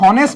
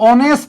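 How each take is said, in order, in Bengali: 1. শব্দটি h ধ্বনি দিয়ে শুরু হয়। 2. শব্দটি একটি স্বরধ্বনি দিয়ে শুরু হয়। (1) "তোমরা কি কখনো হনেস্ট বলো" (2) "অর মতো উচ্চারিত হয়েছে"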